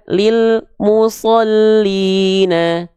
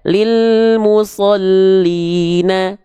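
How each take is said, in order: First: There is a silent break after the l. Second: The l runs smoothly into the next syllable. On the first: The speaker calls it wrong. "banyak yang melafalkan" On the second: The speaker calls it right. "Harusnya kita bacakan lilmu"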